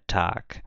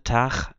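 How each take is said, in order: First: It is said in the standard way, ending in K. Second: It is said in a regional way, without final K. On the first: "a pronúncia padrão é Tag" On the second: "essa pronúncia tar é uma pronúncia regional"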